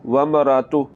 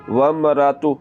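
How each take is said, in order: No difference in how they are said.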